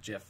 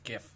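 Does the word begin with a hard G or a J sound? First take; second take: J sound; hard G. First: The word begins with a J sound. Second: The word begins with a hard G sound. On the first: The speaker calls it wrong. "but it's not JIF" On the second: The speaker calls it right. "it's GIF. Come on"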